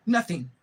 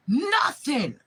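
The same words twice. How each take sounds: First: Said in the usual way. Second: High, loud shouted nothing; furious shout. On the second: Real, not acted. To the kidnapper family, one furious shout. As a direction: yell the word at them.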